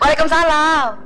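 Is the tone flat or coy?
coy. It is said in a coy, pampered way.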